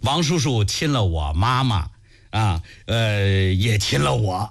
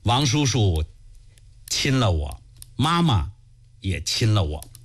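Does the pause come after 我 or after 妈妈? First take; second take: after 妈妈; after 我. First: The pause comes right after 我妈妈. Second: The pause comes right after 亲了我.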